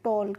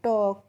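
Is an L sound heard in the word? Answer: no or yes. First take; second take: yes; no. First: The word is said with an L sound. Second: The word is said without any L sound. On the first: The speaker calls it wrong. "टॉल्क नहीं पढ़ते हैं" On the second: The speaker calls it right. "एल silent होती है, तो इसको हम पढ़ते हैं टॉक"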